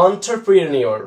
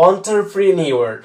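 First: Said in the usual way. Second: "entrepreneur" drawn out very slowly syllable by syllable; careful pronunciation. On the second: Shown as a demonstration. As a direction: model "entrepreneur" slowly for learners. ("entrepreneur" খুব ধীরে, প্রতিটি syllable আলাদা করে) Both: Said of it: "এর উচ্চারণটা হবে".

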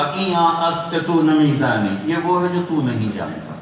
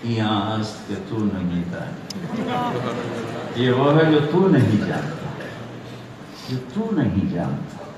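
First: Arrogant. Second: Slow, mock-innocent reply, lower at first. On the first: Retold or imitated. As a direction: dismiss an ignorant questioner with scholarly pride. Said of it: "بڑے تکبر سے کہا". (تکبر بھرا لہجہ) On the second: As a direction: turn the words back on him guilelessly. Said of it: "بڑی معصومیت سے بولے". (معصومیت بھرا لہجہ)

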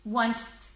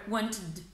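First: Wanted said as one syllable, with no added id ending; wanted with the id ending dropped; wrong way. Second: Wanted said in two syllables, ending in a clear id; wanted with a clearly voiced id ending; right way. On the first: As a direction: clip wanted short, like want with a d tacked on. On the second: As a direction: give wanted its full extra syllable, want-id. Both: Shown as a demonstration. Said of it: "so we couldn't pronounce it".

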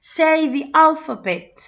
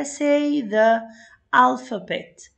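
First: "the" before "alphabet" with an ee vowel, slow, high and loud; "the" as "thee". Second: "the" before "alphabet" with a short uh vowel; "the" as "tha". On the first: Teacher modelling the vowel rule for pupils, "the" said as "thee". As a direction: stretch it out, saying "the" as "thee". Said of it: "هنطقها ذي". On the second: Teacher reading the first activity to pupils, "the" said as "thuh". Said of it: "فأنا مش هنطقها ذا". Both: Shown as a demonstration.

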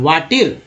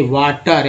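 First: "वाटर" with an ee vowel in the last syllable, "vaa-teer"; wrong E sound. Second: "वाटर" with a short uh in the last syllable, "vaa-tur"; correct schwa sound. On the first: Teacher showing students the mistake, "वाटर" said as "vaa-tir". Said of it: "वाटर में ई को क्या बोलते हैं". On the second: Teacher correcting the misreading, "वाटर" said with a short uh. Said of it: "यानी अ बोल". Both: Shown as a demonstration.

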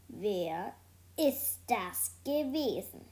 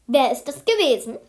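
First: Slow, word-by-word interrogation; stern, measured. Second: Loud, stern teacher's outburst; loud demand. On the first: Teacher demanding who did it, slow and stern. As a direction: draw each word out sternly. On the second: Teacher demanding who squealed, loud and stern. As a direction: bark the question at the class. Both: A narrator's reading.

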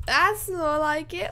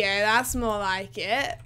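First: Pitched up high and slow, pleased; higher, pleased. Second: Said in the usual way. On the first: Real, not acted. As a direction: lift it high, savouring it. Repeats the line after good frame rate.

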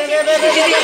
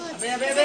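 First: Sharp shouted rebuke at the monkey; rising into a scolding yell; loud scolding shout. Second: Said in the usual way. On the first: Real, not acted. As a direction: yell it to stop him. Scolding the monkey, louder take.

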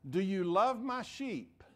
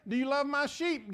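First: Said in the usual way. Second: Louder and higher, pressing the question; louder emphatic quote. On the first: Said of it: "Jesus doesn't say". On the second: Shown as a demonstration. Preacher repeats the misquote louder for emphasis. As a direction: throw the question out hard to the crowd. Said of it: "He doesn't say".

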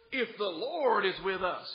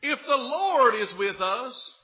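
First: Said in the usual way. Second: Slow, loud, weighted on Lord; stress on Lord. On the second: Shown as a demonstration. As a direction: Lord pushed higher and louder, slow. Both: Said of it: "he goes, tries to put it back on the Lord".

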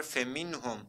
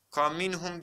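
First: "Feminhum" starting with FE; correct reading. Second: "Kaminhum" starting with KA instead of FE; wrong reading. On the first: Teacher asks how it was read, gives correct reading. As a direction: open "Feminhum" with F and E. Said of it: "Nasıl okuduk arkadaşlar?". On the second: Teacher quizzes students with a wrong reading. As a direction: swap the opening to KA in "Kaminhum". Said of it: "diye okuduk mu?". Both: Shown as a demonstration.

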